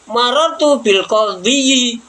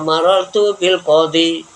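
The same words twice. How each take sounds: First: The last word ends with an added -yi syllable. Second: The last word ends with a plain long i. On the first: The case vowel is shown openly. The speaker calls it wrong. "seandainya ditampakkan ya" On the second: The case vowel is only implied. The speaker calls it right. "Maka dibaca"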